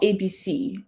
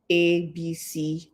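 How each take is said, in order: First: "A, B, C" said as their full alphabet names; "A, B, C" named like reciting the alphabet; letter names. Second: "A, B, C" said as short phonic sounds, not letter names; "A, B, C" as the sounds a child blends. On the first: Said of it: "but not". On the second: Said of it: "teaching them the letter itself". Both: Shown as a demonstration.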